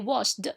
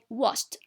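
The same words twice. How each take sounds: First: The ending is not pronounced as a t sound. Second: The ending is pronounced as a t sound. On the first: The speaker calls it wrong. "We do not say watched" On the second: The speaker calls it right. "we say watched. ... the ed here is pronounced t"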